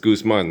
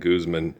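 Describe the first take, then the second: First: The name is said with a Spanish pronunciation. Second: The name is said with an English pronunciation. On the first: The speaker calls it right. "That's how we say it in Spanish-speaking communities" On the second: The speaker calls it wrong. "It's not Guzman"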